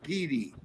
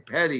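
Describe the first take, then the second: First: It sounds like 'pee-dee', with two long vowels. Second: It sounds like 'petty', with a short first vowel. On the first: The speaker calls it right. "You say Coober P D" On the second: The speaker calls it wrong. "you don't say petty"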